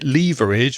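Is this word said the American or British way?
British. It is said the British English way. "which is more British English"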